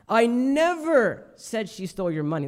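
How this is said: The word "never" carries the main stress. It never happened at all. "That's the emphasis on like never"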